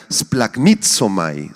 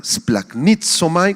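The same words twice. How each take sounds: First: Said in the usual way. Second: Slow Splagnitzomai, spaced out, stress on the first I; Greek word pronounced. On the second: Shown as a demonstration. Teaching the congregation Splagnitzomai, slowly, stress on the first I. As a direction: carefully spell out Splagnitzomai with the accent on the first I. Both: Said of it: "con acento en la primera I".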